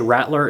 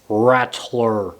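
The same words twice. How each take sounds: First: The t sound is swallowed, not clearly spoken. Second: The t sound is clearly and fully spoken. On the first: "how I say Rattler. It's a Utah thing. We don't enunciate every single letter" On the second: "I'll say it proper for once"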